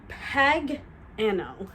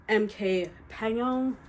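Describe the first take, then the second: First: "Pagano" said very slowly, syllable by syllable, pa-GA-no; careful retry of a name. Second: Said in the usual way. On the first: Real, not acted. Retrying the author's name "Pagano", slow and careful. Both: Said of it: "I'm probably not saying her last name right".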